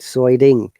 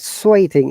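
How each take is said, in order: First: The middle t is a quick d-like flap. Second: The middle t is a clear t sound. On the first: "American will say it sweating" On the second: "sweating is a British I P A"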